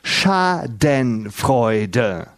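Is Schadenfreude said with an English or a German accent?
German. The word is said with a German accent. "das heißt Schadenfreude"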